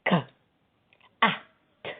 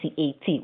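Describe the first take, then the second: First: Each letter is spoken as its sound. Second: Each letter is spoken by its alphabet name. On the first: The speaker calls it right. "whether we say ka, ah, t" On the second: The speaker calls it wrong. "we don't say C A T"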